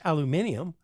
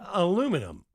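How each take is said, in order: First: It is said the British way. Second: It is said the American way.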